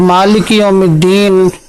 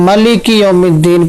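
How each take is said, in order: First: The first vowel of maliki is long. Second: The first vowel of maliki is short. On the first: "इसको अलिफ के साथ पढ़ते हैं" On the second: "बग़ैर अलिफ के"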